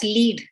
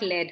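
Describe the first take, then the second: First: The vowel is long, like 'leed'. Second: The vowel is short, like 'led'. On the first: The speaker calls it right. "that's lead" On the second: The speaker calls it wrong. "not led"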